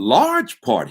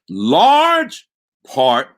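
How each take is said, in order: First: The phrase is said at normal volume. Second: The phrase is said loudly.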